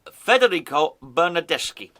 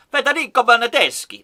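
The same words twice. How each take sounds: First: Federico Bernardeschi in a muddled, not-quite-Italian accent; a stab at Italian that misses; fumbling Federico Bernardeschi in a vague Italian accent; botched Italian accent. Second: Federico Bernardeschi said louder with a firmer Italian accent; confident Italian accent on the retry; proper Italian go. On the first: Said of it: "I don't know what accent I did that in". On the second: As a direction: nail the Italian accent this time. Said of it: "There you go". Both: Shown as a demonstration.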